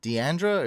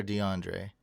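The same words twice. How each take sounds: First: "Deandra" ending in an unstressed 'druh'; name variant. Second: "DeAndre" with an open 'ahn' and a 'dray' ending; name variant. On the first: Streamer checking a viewer's name, "Deandra" said dee-AN-druh. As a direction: say "Deandra" with a flat 'an' and a short 'ruh' ending. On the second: Streamer checking a viewer's name, "DeAndre" said dee-AHN-dray. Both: Shown as a demonstration. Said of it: "Is that how you say it?".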